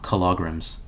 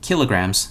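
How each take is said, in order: First: The stress is on the second syllable. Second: The stress is on the first syllable. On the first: The speaker calls it wrong. "not kilograms" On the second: The speaker calls it right. "you measure mass as kilograms"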